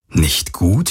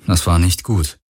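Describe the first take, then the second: First: "Nicht gut?" asked back with a rising end; questioning echo. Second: Said in the usual way. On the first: Acted. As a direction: doubt your own words, ending up on "gut". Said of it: "fragte er sich selbst". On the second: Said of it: "Nicht gut?, fragte er sich selbst".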